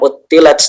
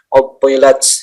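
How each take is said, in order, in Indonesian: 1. Bunyi "t" itu ringan dan biasa. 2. Bunyi "t" itu berat dan tegas. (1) "jangan utilat" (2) "po itu hati-hati di situ. Jadi bedakan dengan tak"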